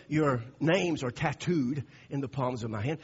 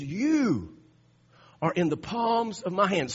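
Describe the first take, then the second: First: Said in the usual way. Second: "You" set apart and hit louder, then a pause before the rest; stress on You. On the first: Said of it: "what I want you to see here is he didn't say". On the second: Shown as a demonstration. Preacher correcting the verse, stressing "You" loudly. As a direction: land hard on "You" alone, then carry on. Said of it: "See, he says, I want you to see this. You are in".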